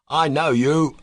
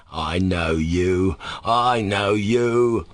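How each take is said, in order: First: Higher, accusing cry; angry cry. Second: Very slow, dim-witted drawl; idiotic repetition. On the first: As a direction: cry it out angrily at the boy. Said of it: "he cried angrily". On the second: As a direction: drag out each word stupidly. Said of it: "the man repeated idiotically". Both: A narrator's reading.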